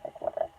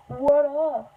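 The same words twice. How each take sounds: First: Said in the usual way. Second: Louder, higher hype greeting; playful greeting. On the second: Pretend. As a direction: call it out like a hype host. Hammed-up greeting to viewers.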